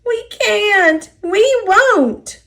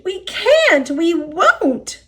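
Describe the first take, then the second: First: Much higher, whiny refusal; sulky trucks refusing to budge; stubborn whining cars. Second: Much higher, stubborn whine; whiny refusing cars. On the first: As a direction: dig in your heels and whine it. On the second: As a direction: whine it back defiantly. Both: A narrator's reading. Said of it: "the cars groaned".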